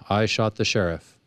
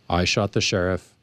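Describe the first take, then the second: First: It sounds like a flat admission of guilt. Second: The same.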